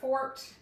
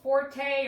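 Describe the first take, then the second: First: The name has one syllable, ending in t. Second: The name has two syllables, ending in a vowel. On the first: "It might just be Fort" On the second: "it's Will Forte"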